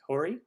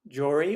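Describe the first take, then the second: First: The name begins with an H sound. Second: The name begins with a J sound.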